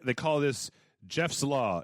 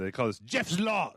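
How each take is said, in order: First: It is said in the speaker's plain accent. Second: It is said in a put-on German accent.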